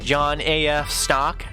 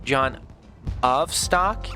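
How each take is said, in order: First: The middle part is said as letters. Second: The middle part is said as one word.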